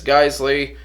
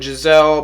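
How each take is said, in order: First: The name is said like 'Geisley'. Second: The name is said like 'Giselle'. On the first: The speaker calls it right. "but it's Geisley" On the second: The speaker calls it wrong. "Some people pronounce it Giselle"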